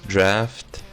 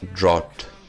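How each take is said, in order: First: The vowel sounds like the one in 'laughed'. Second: The vowel sounds like the one in 'out'. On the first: The speaker calls it right. "It's draft, as in laugh" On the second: The speaker calls it wrong. "it's not drought"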